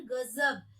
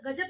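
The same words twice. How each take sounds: First: गजब with throaty gh and z; buzzing z in गजब; nukta गजब. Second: गजब with plain g and j; undotted j in गजब; wrong गजब. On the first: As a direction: say गजब as ghazab. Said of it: "क्या पढ़ेंगे". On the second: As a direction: say गजब as gajab. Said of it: "गजब नहीं पढ़ेंगे". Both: Shown as a demonstration.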